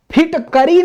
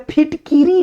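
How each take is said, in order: First: फिटकरी said phit-ka-ri, high pitched; phit-KA-ri, a in the middle of फिटकरी; incorrect ka form. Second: फिटकिरी said phit-ki-ri, high pitched; phit-KI-ri, i in the middle of फिटकिरी; correct ki form. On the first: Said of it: "फिटकरी नहीं होता है". (फिटकरी में क पर अ) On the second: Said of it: "फिटकिरी होता है". (फिटकिरी में कि, छोटी इ) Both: Shown as a demonstration.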